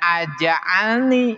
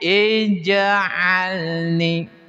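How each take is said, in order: First: The word begins with an a vowel. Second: The word begins with an i vowel. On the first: The speaker calls it wrong. "jangan aj'alni" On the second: The speaker calls it right. "tapi ij'alni"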